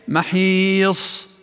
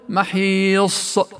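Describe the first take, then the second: First: The final s ends smoothly with light breath. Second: The final s ends with an added catch or bounce. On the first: The speaker calls it right. "بل هي إيش؟" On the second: The speaker calls it wrong. "لاحظ كأنه زاد همزة أو قلقل"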